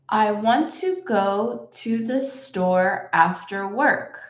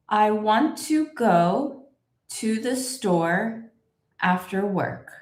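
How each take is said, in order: First: It is said at a somewhat faster pace. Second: It is said slowly with a small pause. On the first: "Let's say it a little bit faster" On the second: "put a little pause where you see this line"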